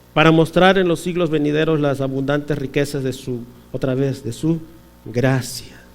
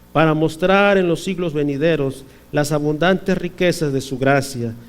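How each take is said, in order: The two takes are said the same way.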